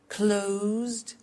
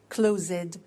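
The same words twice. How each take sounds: First: The ending is a short d sound only. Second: The ending is said as an extra syllable. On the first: The speaker calls it right. "we eliminate the E" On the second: The speaker calls it wrong.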